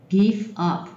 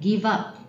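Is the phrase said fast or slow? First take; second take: slow; fast. First: The phrase is said at a slower pace. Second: The phrase is said at a faster pace.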